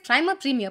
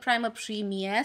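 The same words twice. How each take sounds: First: The name is said in a plain, ordinary way. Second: The name is said in a fancy, posh way. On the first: The speaker calls it wrong. "all I'm able to say is" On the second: The speaker calls it right. "this is supposed to sound way more bougie"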